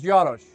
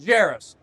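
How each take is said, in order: First: The name is said with a Czech pronunciation. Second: The name is said with an English pronunciation. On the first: This is how the family's home country says the name. "in my grandparents' native country, which is Czechoslovakia, it was" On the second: This is how people here say the name. "How do people pronounce your name?"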